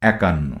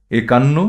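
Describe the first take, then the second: First: একান্ন with an open æ at the start; spoken form with æ. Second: একান্ন with a closed e at the start; spelling pronunciation with e. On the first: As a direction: say একান্ন as "ækanno", falling at the end. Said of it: "যার উচ্চারণ হবে". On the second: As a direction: read একান্ন as written, "ekanno", tone rising. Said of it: "তদ্ভব". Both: Shown as a demonstration.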